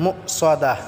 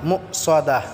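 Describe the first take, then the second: First: The s sound is thick and heavy. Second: The s sound is thick and heavy.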